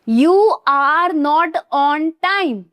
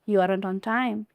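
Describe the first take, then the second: First: 'Are not' is said as two full words. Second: 'Are not' is squeezed into one word. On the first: This is the form taught in school. "हम जो school में पढ़ते हैं वो हमें सिखाया जाता है" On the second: This is how people actually speak. "पर बोलते कैसे हो?"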